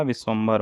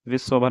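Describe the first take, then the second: First: Said in the usual way. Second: विश्वभर with no m before "bhar"; missing nasal m. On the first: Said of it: "होगा". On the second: Shown as a demonstration. Teacher showing the wrong form, विश्वभर without the m. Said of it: "नहीं होगा".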